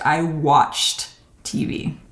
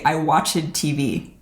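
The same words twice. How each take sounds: First: The -ed ending is a plain t sound. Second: The -ed ending is not a plain t sound. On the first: The speaker calls it right. "the ed pronunciation will be t" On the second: The speaker calls it wrong. "I also hear students often say, ... This is incorrect"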